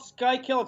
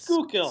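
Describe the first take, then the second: First: The first syllable sounds like 'sky'. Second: The first syllable sounds like 'school'. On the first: The speaker calls it wrong. "It's not called Skykill" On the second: The speaker calls it right. "it's Schuylkill"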